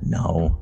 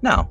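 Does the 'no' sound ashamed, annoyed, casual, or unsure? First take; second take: ashamed; casual. First: The word is said quietly with a sense of shame. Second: The word is said in a relaxed, casual way. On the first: The speaker feels embarrassed about the answer. "just very ashamed" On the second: The speaker is simply declining without fuss. "just very casually"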